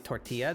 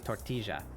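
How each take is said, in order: First: The double L has its ordinary sound. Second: The double L is a soft, breathy J sound. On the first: This is not how the country speakers say it. "They they don't say tortilla" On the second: This is how the country speakers say it. "they say tortilla. It's like a like a soft J sound"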